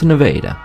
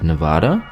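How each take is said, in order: First: It uses the local Missouri pronunciation. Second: It uses the usual state-name pronunciation. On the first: The speaker calls it right. "it's Nevada" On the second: The speaker calls it wrong. "Do Missourians pronounce it Nevada? No"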